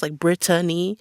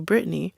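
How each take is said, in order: First: The name is said with three full syllables. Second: The name is said with two syllables. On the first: The speaker calls it right. "pronouncing it with the three syllables" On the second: The speaker calls it wrong. "I'm not going to correct people when they say"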